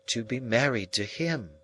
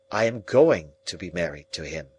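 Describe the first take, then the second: First: Soft, gentle and even; gentler voice. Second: Said in the usual way. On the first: A narrator's reading. Estella softly repeating her news to Pip, gentle. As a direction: say it kindly, softening it. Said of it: "she said again in a gentler voice". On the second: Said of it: "Then she said".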